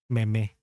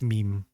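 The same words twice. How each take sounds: First: It is said the Filipino way, like a comedian. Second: It is said the standard English way. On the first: The speaker calls it wrong. "I used to call it meme. Parang, parang vice ganda" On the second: The speaker calls it right. "Then later on, I found that it's meme"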